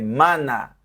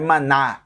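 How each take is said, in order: First: The stress falls on the first syllable. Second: The stress falls on the final syllable. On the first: The speaker calls it right. "eu não falo de forma aguda esse A" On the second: The speaker calls it wrong. "você não pode dar entonação no final"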